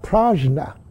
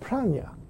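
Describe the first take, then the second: First: The middle consonant is a 'j' sound. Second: The middle consonant is an 'ny' sound. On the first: The speaker calls it wrong. "It's not prajna" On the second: The speaker calls it right. "it's pranya"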